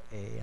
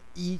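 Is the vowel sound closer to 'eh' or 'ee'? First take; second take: eh; ee. First: The vowel sounds like 'eh'. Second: The vowel sounds like 'ee'. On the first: The speaker calls it right. "这个读做下哈" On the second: The speaker calls it wrong. "你唔通读故乡衣残垣"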